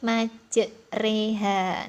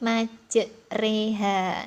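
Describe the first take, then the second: First: The middle syllable is pronounced with an 'e' vowel. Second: The middle syllable is pronounced with an 'e' vowel.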